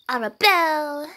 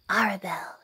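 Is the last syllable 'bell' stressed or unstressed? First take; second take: stressed; unstressed. First: The final syllable 'bell' is stressed. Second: The final syllable 'bell' is not stressed. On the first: The speaker calls it wrong. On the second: The speaker calls it right.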